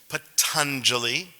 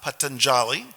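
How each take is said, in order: First: The ending does not sound like jolly. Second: The ending sounds like the English word jolly. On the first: The speaker calls it right. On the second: The speaker calls it wrong.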